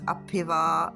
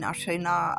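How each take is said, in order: First: The word begins with an 'ap' sound. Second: The word begins with an 'ar' sound. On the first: It is read as if the letters were English. The speaker calls it wrong. "if we pronounce it the way we see it in English" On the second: It is read the way Greek speakers say it. The speaker calls it right. "That's the way they pronounce it"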